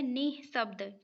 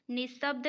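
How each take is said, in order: First: निःशब्द as "nih-sabd"; निःशब्द with the visarga breathed out; correct form with visarga. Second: निःशब्द run together as "nisabd"; निःशब्द without the breath of visarga; wrong form without visarga. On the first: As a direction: sound an h after "ni" in निःशब्द. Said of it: "नी के बाद विसर्ग लिखा होगा". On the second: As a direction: say निःशब्द with no h before the s. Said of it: "नहीं लिखा होता है". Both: Shown as a demonstration.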